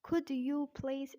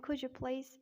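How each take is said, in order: First: British "Could you please", words kept apart; British-accent demo phrase. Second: American "could you please" run together; American-accent demo phrase. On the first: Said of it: "in British accent". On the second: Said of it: "in American". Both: Shown as a demonstration.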